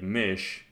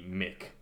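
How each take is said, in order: First: It ends softly, as in northern Germany. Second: It ends with a hard k, Sudbury style.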